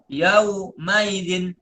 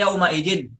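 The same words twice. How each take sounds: First: Yauma idin drawn out slowly, hamzah softened toward ya; slow tashil reading. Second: Said in the usual way. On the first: Shown as a demonstration. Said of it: "kalau Imam Hamzah bacanya". (yauma idin dibaca pelan dengan tashil) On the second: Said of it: "kalau kita bacanya".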